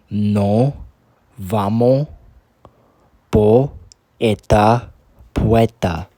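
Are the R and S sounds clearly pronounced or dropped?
dropped. The R and S sounds are dropped. "in the Cuban accent"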